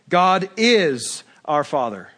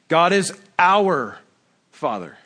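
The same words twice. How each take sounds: First: The word is is stressed. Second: The word our is stressed.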